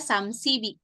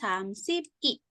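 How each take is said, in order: First: The p sound links into i as b. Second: The p sound stays separate before i. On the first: The speaker calls it right. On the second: The speaker calls it wrong.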